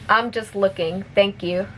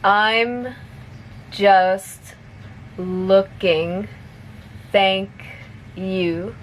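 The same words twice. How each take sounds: First: It is spoken at a fast pace. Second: It is spoken slowly. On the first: "one more time at normal speed" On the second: "I'll say it slowly first"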